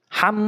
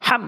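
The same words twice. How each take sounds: First: "হাম" with the final m drawn out as a nasal hum; wrong ghunnah demo. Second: "হাম" with a short, clear final m; clear, no ghunnah. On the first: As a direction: hold and hum the m ending "হাম". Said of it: "এভাবে গুণনা করে বলা যাবে না". ("হাম" শেষের ম নাকে টেনে গুন্না করে) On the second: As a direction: close "হাম" on m without holding the hum. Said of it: "স্পষ্ট করে উচ্চারণ করতে হবে". ("হাম" গুন্না ছাড়া স্পষ্ট করে) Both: Shown as a demonstration.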